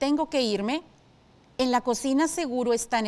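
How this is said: It is read with a hesitant, doubtful tone. "Si tu respuesta fue duda, es correcto"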